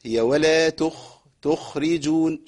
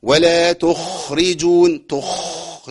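First: تخرجون with a clear, light kh; correct kh. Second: تخرجون with a hard, snoring kh; overdone kh. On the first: Teacher models the good تخرجون. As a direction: let the kh in تخرجون be heard, not snored. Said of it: "والله جميلة جدًا". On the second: Teacher warns against a snoring kh. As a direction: push the kh of تخرجون into a snore. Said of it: "ما أقولش". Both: Shown as a demonstration.

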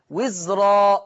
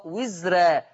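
First: وزرا with a thick, heavy ra; وزرا said with the r full and velarised; تفخيم الراء في وزرا. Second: وزرا with a thin, light ra; وزرا said with the r light and fronted; ترقيق الراء في وزرا. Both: Shown as a demonstration. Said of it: "هكذا تقرأ بجواز التفخيم والترقيق".

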